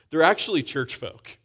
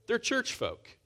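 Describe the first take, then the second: First: Actually leaned on, a little louder; stress on actually. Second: Church jumps much higher, then falls; stress on church. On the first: Naming Adam and Eve as church folk, stressed actually. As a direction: press the word actually. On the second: Making it clear to the congregation, church up high. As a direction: pitch church way up for emphasis. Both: Shown as a demonstration. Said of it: "Let's be clear".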